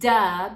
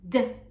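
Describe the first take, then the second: First: The D sound is followed by a vowel. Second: The D sound is said without a vowel. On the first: The speaker calls it wrong. "the latter implies that there's a vowel after the letter D" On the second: The speaker calls it right. "making sure that you're pronouncing it D"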